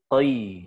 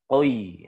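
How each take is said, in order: First: The vowel glides from o to i. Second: The vowel glides from o to i.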